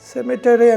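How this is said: It is said with an American pronunciation. "American pronunciation"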